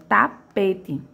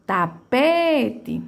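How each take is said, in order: First: Said in the usual way. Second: Tapete with a long, drawn-out PE; stress on PE. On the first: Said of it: "Já a minha segunda palavra". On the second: Shown as a demonstration. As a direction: stretch the middle "pe" of Tapete. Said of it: "É a minha sílaba que mais se arrasta". (Tapete com o PE bem arrastado)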